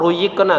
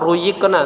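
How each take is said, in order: First: The middle consonant is a y sound. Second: The middle consonant is a y sound.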